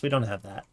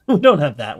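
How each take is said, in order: First: Said in the usual way. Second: Laughing it out, louder; giggling through the words. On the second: Real, not acted. Repeats line with a laugh.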